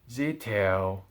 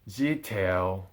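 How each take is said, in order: No difference in how they are said.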